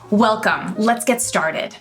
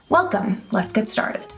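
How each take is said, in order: First: It is said loudly and confidently, without shouting. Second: It is said quietly, at a soft volume. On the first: "in a loud, confident, not screaming or shouting voice" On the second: "at a soft volume"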